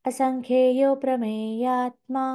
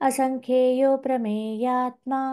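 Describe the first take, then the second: The two takes are said the same way.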